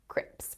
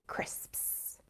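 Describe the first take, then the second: First: The word ends with a plain 'ps' sound. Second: The word ends with the full 'sps' sound. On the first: The speaker calls it wrong. "You'll find a lot of people mispronouncing them as crips" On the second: The speaker calls it right. "when they should be crisps"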